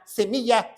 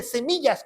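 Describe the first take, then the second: First: "semilla" ending on an open a, no s; no final S. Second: "semillas" with an audible s at the end; final S sounded. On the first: Preacher explaining Paul's promise, "semilla" without a final s. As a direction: say "semilla" as a clear singular. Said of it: "sin ese". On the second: Preacher correcting the misreading, "semillas" with a final s. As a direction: say "semillas" as a clear plural. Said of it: "con ese". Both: Shown as a demonstration.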